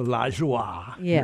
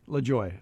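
First: The name is said with a French pronunciation. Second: The name is said with an English pronunciation. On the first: This is the usual French way of saying the name. The speaker calls it wrong. "as opposed to LaJoie or something" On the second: This is how the namesake said her own name. The speaker calls it right. "that's how she pronounced her last name"

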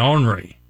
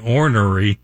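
First: It is said southern style, with two syllables. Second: It is said northern style, with three syllables.

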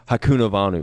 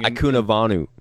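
First: The name begins with an H sound. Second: The name begins with a vowel sound. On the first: The speaker calls it right. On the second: The speaker calls it wrong.

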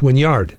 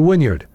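First: The last syllable is a full 'yard'. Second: The last syllable is reduced, not a full 'yard'. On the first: The speaker calls it right. "when it's pronounced Wynyard" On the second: The speaker calls it wrong. "I say Wynyard"

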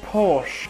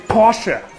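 First: It is said with a common English pronunciation. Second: It is said with the German pronunciation. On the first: The speaker calls it wrong. "I hear the name Porsche a lot" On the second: The speaker calls it right. "In Germany, we say Porsche"

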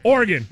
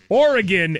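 First: The word is said fast, squeezed together. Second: The word is said slowly, with every syllable. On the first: "They just go Oregon" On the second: "they don't say Oregon anymore"

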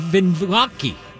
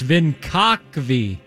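First: The name sounds like vin-VAH-kee. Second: The name sounds like vin-KAHK-vee. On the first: The speaker calls it wrong. "I did that wrong" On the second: The speaker calls it right. "It's Vinkakvi"

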